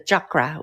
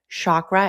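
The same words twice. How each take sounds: First: Chakra is said in a more traditional way. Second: Chakra is said in an easy, anglicized way. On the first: "which is very hard for me to pronounce" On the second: "Like I'm pronouncing it right now"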